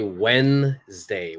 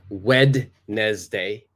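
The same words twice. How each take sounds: First: The d is silent, giving two syllables. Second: The d is sounded, giving three syllables. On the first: The speaker calls it right. "We say Wednesday. the D is completely silent" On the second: The speaker calls it wrong. "We don't say Wednesday"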